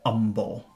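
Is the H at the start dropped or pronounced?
dropped. The word begins without any H sound. "he always pronounces it umble"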